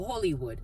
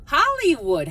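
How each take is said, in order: First: Said in the usual way. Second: Hollywood called out higher and louder; sudden loud, high Hollywood; excited exclamation. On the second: Acted. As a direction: burst out with Hollywood. Repeats name, then exclaims.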